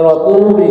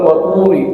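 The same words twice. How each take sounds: First: "turi" said as the mistaken ri, not thin; wrong ri. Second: "turi" with a thin, light ri. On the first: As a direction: demonstrate "turi" with the faulty ri. ("turi" dengan ri yang keliru, tidak tipis) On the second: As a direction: demonstrate "turi" keeping the ri thin. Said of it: "ri, ri ya tipis ya". ("turi" dengan ri tipis) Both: Shown as a demonstration.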